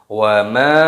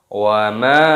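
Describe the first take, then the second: No difference in how they are said.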